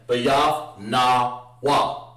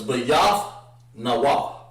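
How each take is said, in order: First: The syllables na and wa are split apart. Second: The syllables na and wa run together smoothly. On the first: The speaker calls it wrong. "instead of saying bayaf na wa. You don't want to break it up like that" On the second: The speaker calls it right. "it's bayaf na wa"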